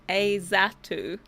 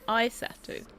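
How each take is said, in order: First: The first syllable sounds like 'is'. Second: The first syllable sounds like 'eye'. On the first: The speaker calls it wrong. "I said is" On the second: The speaker calls it right. "but it's I"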